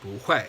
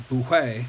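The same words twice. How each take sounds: First: "bu hui" with bu rising, then hui falling; second-tone change. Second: Louder "bu hui" with both syllables falling; two fourth tones. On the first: Teacher showing the tone rule, "bu hui" with rising bu. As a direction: lift "bu" and drop "hui" in "bu hui". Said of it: "becomes the second tone". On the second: Teacher showing the unaltered form, "bu hui" in fourth tones. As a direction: drop sharply on each word of "bu hui". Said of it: "back-to-back fourth tone". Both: Shown as a demonstration.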